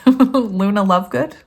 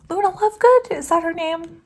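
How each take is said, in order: First: Said in the usual way. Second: Put-on high, playful British accent, asking. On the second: Reader musing about Harry Potter names in British accent. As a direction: put on a British lilt for the question. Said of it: "I was speaking in a British accent".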